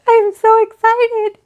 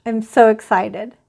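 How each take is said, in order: First: Much higher and louder, squeaky with real joy; squealing with excitement. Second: Said in the usual way. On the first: Real, not acted. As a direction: burst out almost crying with happiness.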